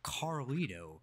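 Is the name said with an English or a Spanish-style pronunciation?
English. The name is said with a plain American English R. "just say it as Caucasian as I possibly can"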